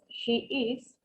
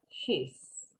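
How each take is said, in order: First: It is said as two separate syllables. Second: It is said as one short syllable. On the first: "Cuando no está contraído es she is" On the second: "cuando contraemos, she's"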